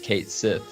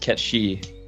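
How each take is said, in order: First: It is said as two words, Kate Sith. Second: It is said as two syllables, Ket-shi. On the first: It follows how the English spelling reads. "it's hard not to read as Kate Sith" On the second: It follows the original Japanese sounds. "Japanese phonetic pronunciation is Ketshi"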